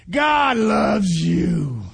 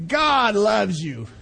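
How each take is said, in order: First: Slow, louder, stretched declaration; emphatic proclamation. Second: Gentle slow assurance. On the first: Preacher tells the congregation God loves them, slow and loud. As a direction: proclaim it slowly to the crowd. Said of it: "preacher's slow emphatic proclamation". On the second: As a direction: let it land gently. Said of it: "repeat softer, slow". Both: Real, not acted.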